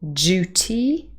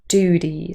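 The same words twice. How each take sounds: First: A y sound follows the d. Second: The d goes straight into the vowel. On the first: "duty with the y" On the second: "in General American Pronunciation with j dropping"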